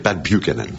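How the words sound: The name is said with American pronunciation. "si on prononce américain"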